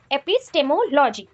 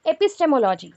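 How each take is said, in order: First: epistemology said slowly, syllable by syllable; slow, deliberate epistemology for the class; slower repeat. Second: Said in the usual way. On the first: Shown as a demonstration. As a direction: drag out epistemology so students catch it. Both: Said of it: "इसको directly हम लोग क्या बोल सकते हैं".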